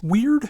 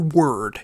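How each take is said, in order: First: It is said with the vowel of 'beard'. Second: It is said with the vowel of 'bird'. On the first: "either pronounced weird" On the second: "or word"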